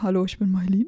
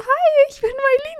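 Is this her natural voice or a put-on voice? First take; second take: natural; put-on. First: It is said in her natural voice. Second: It is said in a put-on voice.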